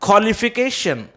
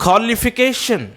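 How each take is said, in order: Both takes have the same delivery.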